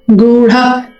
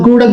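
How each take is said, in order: First: The middle consonant has a breathy h release. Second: The middle consonant has no breathy h release. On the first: The speaker calls it right. "explicitly say those ha sounds" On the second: The speaker calls it wrong. "Don't say"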